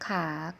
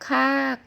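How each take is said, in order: First: The pitch dips low then rises. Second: The pitch falls from high to low. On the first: "เสียงจัตวา" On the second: "เสียงโท"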